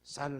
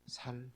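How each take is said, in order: First: The first consonant is a tense s sound. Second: The first consonant is a plain s sound. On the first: The speaker is not from Ephraim. The speaker calls it right. "쌀 하면은 이제 에브라임 사람이 아닌 거고" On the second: The speaker is from Ephraim. The speaker calls it wrong. "살 그러면은 이제 에브라임 사람인 겁니다"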